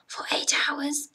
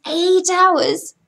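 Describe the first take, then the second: First: Said in the usual way. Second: EIGHT HOURS punched higher, in disbelief; indignant emphasis. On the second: Real, not acted. Crew member ranting about standby, indignant stress on EIGHT HOURS. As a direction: hammer EIGHT HOURS with raised pitch. Repeats the length in outrage.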